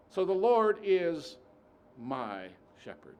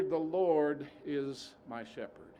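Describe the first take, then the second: First: Preacher's emphatic line; emphatic build. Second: \"The Lord is my shepherd\" drawn out slowly, leaning on Lord; slow, weighty quote. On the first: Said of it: "Jehovah Rohi is my sufficiency". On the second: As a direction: savour each word slowly. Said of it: "He is. Not was". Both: Shown as a demonstration.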